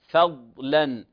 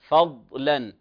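Both takes have the same delivery.

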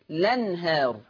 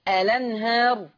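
First: The word begins directly with the l sound. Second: The word begins with a glottal stop and vowel. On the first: "حذف همزة الوصل فتصير لنهار" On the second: "اثبات همزة الوصل فاقول الأنهار"

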